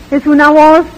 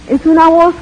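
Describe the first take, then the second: No difference in how they are said.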